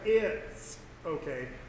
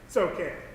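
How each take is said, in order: First: It begins with a full vowel sound. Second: It begins directly with a ts sound. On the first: "He doesn't start off with the I. He doesn't say it's okay" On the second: "he starts out with the T sound"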